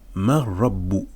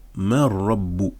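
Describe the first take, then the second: Both takes have the same delivery.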